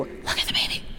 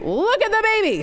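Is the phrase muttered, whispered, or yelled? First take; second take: whispered; yelled. First: The phrase is whispered without full voice. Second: The phrase is yelled loudly and forcefully. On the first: "whisper it to you" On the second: "he would yell. And it was a terrifying yell"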